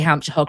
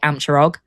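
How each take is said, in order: First: The H sounds are pronounced. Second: The H sounds are dropped, Hampshire style.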